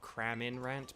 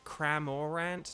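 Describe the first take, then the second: First: The middle syllable is said as 'min'. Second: The middle syllable is said as 'mor'. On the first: The speaker calls it wrong. "not Craminrant, but it's because of Cramin in the chat" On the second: The speaker calls it right. "It's like it's Cramorant"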